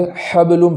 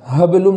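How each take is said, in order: First: The first h is a deep throaty h. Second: The first h is a light, ordinary h. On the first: The speaker calls it right. "बल्कि हबलुम पढ़ना है" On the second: The speaker calls it wrong. "हा को छोटी हा की आवाज़ में नहीं पढ़ना है, हबलुम नहीं पढ़ना है"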